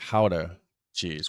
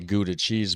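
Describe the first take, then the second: First: Gouda is said with the original Dutch pronunciation. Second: Gouda is said with the usual English pronunciation. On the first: This is how it is said where it came from. "the way it's supposed to be pronounced is more like Gouda cheese" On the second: This is how people here say it. "here, you know, they say Gouda cheese"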